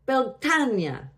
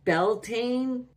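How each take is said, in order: First: The word is said with Gaelic pronunciation. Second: The word is said with anglicized pronunciation. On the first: The speaker calls it right. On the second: The speaker calls it wrong.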